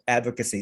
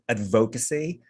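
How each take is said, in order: First: The stress falls on the first syllable. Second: The stress falls on a later syllable. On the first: The speaker calls it right. "it's actually on the first syllable" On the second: The speaker calls it wrong. "a lot of Filipinos would say advocacy, but it's actually on the first syllable"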